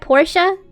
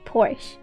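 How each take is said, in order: First: The word is said with two syllables. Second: The word is said with one syllable. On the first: The speaker calls it right. "The first, Portia. It's supposed to be called Portia" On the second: The speaker calls it wrong. "Porsche is commonly used in the U S as one syllable"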